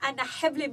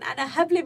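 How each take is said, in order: First: The h sound is harsh and breathy. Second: The h sound is light and plain. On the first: It means I'm pregnant. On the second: It means I'm stupid.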